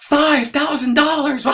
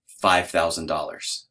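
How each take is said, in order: First: Very high, loud, drawn-out shriek; outraged high-pitched mock yell, stretched out; mock yelling wife. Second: Low, slow, drawn-out confession; measured, low-voiced sheepish answer; reluctant admission. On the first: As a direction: scream it back in hammed-up disbelief. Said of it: "She starts yelling at me". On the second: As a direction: own up to the price slowly and sheepishly. Husband reluctantly admits the price to wife.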